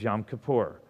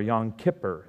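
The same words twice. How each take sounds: First: It is said the newer, everyday way. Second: It is said the older, traditional way.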